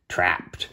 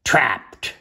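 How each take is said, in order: First: Said in the usual way. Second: Punched, excited chapter title; sudden dramatic exclamation; exclaimed. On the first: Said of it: "T R A P P E D". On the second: A narrator's reading. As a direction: read it with an exclamation point. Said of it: "That indicates some excitement".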